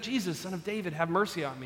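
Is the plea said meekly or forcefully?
meekly. It is said gently and meekly.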